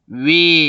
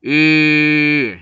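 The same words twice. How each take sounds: First: 위 as a drawn-out, gliding "wi"; 위 sliding from w into i; changing diphthong. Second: 으 as a long rounded "ü", no glide; steady, sustained front rounded vowel on 으; pure monophthong. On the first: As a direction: let the lips move through 위. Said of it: "이렇게 변하지". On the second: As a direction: hold 으 with fixed rounded lips. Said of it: "이렇게 발음해야 돼요". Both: Shown as a demonstration.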